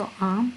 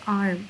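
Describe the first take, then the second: First: आर्म said as aam with no r, British style. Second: आर्म with the r lightly sounded, American style. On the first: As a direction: keep the r silent in आर्म. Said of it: "आर को मैं ज़्यादा pronounce नहीं कर रही क्योंकि मैं British use कर रही हूँ". (आर्म ब्रिटिश ढंग से, बिना आर के) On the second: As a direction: let a bit of r show in आर्म. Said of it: "थोड़ा सा प्रोनाउंस करना है जैसे आर्म". (आर्म अमेरिकन ढंग से, हल्का आर बोलते हुए) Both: Shown as a demonstration.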